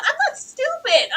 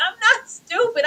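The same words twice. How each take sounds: First: High, insistent daughter voice; a daughter telling her dad she isn't stupid; indignant daughter. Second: High voice cracking into crying; a daughter repeating herself on the edge of crying; tearful daughter. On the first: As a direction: stand up for yourself, up high. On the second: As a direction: let it break into tears. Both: Retold or imitated.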